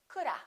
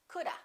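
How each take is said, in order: No difference in how they are said.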